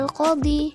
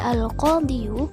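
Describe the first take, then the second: First: The word ends on a plain long 'i' sound. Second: The word ends with an added 'yu' syllable. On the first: The speaker calls it right. "ketika rofa dia tetap dibaca al-qadhi" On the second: The speaker calls it wrong. "tidak boleh dibaca al-qadhiyu"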